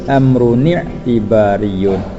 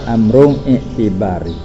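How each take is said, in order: First: The last word ends with the full -iyun ending. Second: The last word ends clipped, without the -yun ending. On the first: It follows the formal reading rules. "baca nak kena kaedah dia tu" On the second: It is the ordinary everyday reading. "apabila kita baca hak biasa tak apalah"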